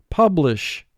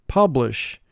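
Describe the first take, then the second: Both takes have the same delivery.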